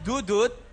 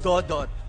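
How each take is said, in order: First: The name is said with u vowels. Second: The name is said with o vowels. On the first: The speaker calls it wrong. "Not Dudut. People think it's Dudut" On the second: The speaker calls it right. "I'm Dodot"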